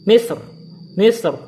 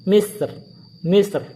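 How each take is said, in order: No difference in how they are said.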